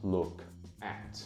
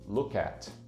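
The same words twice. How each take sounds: First: The two words are said separately and distinctly. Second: The two words are fused into one unit. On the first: "e não look at" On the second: "look at e não"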